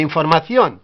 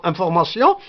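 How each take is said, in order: First: "información" with th and a sounded final n; Spanish pronunciation. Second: "information" with nasal vowels and -syon ending; French pronunciation. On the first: Teacher correcting French towards Spanish, Castilian th. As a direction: say "información" as in-for-ma-THYON. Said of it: "mais información". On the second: Teacher comparing French with Spanish, French nasal vowels. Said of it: "Presque en français". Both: Shown as a demonstration.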